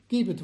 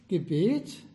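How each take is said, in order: First: The stress is on the first syllable. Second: The stress is on the second syllable. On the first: It tells people to give something. "gleiche Wort, nur eine andere Betonung" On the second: It names a prayer. "gleiche Wort, nur eine andere Betonung"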